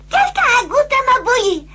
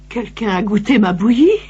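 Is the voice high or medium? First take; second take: high; medium. First: It is said in a small, high, shrill voice. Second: It is said in a medium voice.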